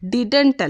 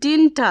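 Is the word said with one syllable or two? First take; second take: two; one. First: It is said with two full syllables. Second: It is said as one short syllable. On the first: The speaker calls it wrong. "This is എ മിസ് പ്രൊനൗൺസിയേഷൻ" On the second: The speaker calls it right. "ഇവിടെ ശ്രദ്ധിക്കേണ്ടത് പ്രൊനൗൺസിയേഷൻ ഡിൻറ്റ് ആണ്"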